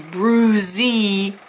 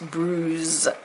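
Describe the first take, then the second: First: The word ends with an extra ee vowel. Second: The word ends on the z sound. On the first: The speaker calls it wrong. "we don't say bruisey" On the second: The speaker calls it right. "it's just bruise"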